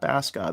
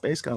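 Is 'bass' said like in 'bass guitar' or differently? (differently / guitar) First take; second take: differently; guitar. First: Bass is not said like in bass guitar. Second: Bass is said like in bass guitar. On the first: The speaker calls it wrong. "not Bass God" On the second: The speaker calls it right. "like a bass guitar"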